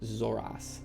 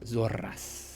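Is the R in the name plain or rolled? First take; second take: plain; rolled. First: The R is said as a plain R. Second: The R is rolled with a trill.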